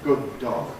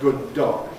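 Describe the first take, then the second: Both takes have the same delivery.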